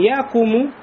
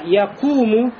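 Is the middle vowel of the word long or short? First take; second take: short; long. First: The middle vowel is short, not drawn out. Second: The middle vowel is long and drawn out. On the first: The speaker calls it wrong. "Не якуму" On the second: The speaker calls it right. "а якуму"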